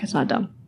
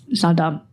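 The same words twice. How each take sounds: First: It's not dumb whispered, much softer and breathless; It's not dumb, softer, whispered to herself. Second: Said in the usual way. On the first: Real, not acted. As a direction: take it back under the breath. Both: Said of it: "I take it back".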